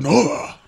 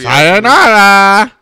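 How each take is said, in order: First: It is said in a Yakuza samurai voice. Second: It is said in his normal voice.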